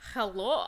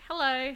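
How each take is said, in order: First: It is said in a weird put-on voice. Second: It is said in a normal speaking voice. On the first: "I thought I should do a weird voice"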